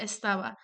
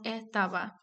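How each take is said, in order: First: "estaba" with the S fully sounded; retained S. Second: "etaba" with the S weakened away before the T; aspirated S. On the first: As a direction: keep a clear S before the T in "estaba". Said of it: "Un ejemplo de la aspiración de s". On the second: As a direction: drop the S of estaba to say "etaba". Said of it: "la pronunciación de estaba como etaba". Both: Shown as a demonstration.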